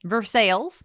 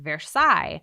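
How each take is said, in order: First: It is said with a local Kentucky pronunciation. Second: It is said with a French-style pronunciation. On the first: "that's not how you say that word in Kentucky" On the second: "like the famous French place"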